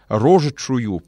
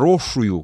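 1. Средние согласные произносятся полностью. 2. Средние согласные опускаются и редуцируются. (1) "в соответствии с церковнославянским текстом и вообще с правилами произношения" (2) "как очень часто. Что за слово «рошую»?"

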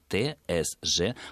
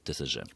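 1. Каждая буква произносится по её названию в алфавите. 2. Буквы не произносятся по своим названиям в алфавите. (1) "правильно все-таки будет побуквенное произнесение" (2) "в некоторых случаях получается вот этот ТСЖ"

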